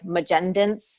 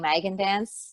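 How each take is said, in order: First: It is said with a French pronunciation. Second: It is said with an English pronunciation. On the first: "A lot of the Frankenfo- francophones will say like" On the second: "but here, most people say"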